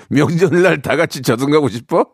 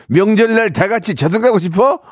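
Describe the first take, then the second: First: Said in the usual way. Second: High-pitched, heated mock outburst; indignant retort. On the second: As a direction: snap it out like an acted car quarrel. Repeats quoted retort as angry outburst.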